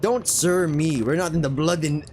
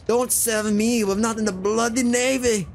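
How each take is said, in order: First: Said in the usual way. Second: Higher-pitched, put-out sailor voice; irritated sailor. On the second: Acted. Sailor rebuking new deckhand for saying sir, high irritated voice.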